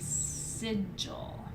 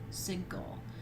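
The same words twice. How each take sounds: First: The g is pronounced soft, as in gem. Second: The g is pronounced hard, as in go. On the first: "Some people say sigil" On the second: "I say it with a g sound"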